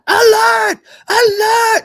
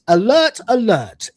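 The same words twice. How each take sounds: First: It is said urgently, with dramatic alarm. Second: It is said flatly, dry and deadpan. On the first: The speaker calls it wrong. "it's not like that" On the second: The speaker calls it right. "It sounds like a pen pusher"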